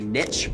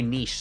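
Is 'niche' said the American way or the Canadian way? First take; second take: American; Canadian. First: It is said the American way. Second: It is said the speaker's Canadian way.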